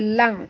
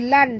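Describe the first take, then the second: First: The syllable ends in a nasal ng sound. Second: The syllable ends in a plain n sound. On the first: The speaker calls it right. "tapi bunyi dia lang" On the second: The speaker calls it wrong. "dia bukan bunyi lan"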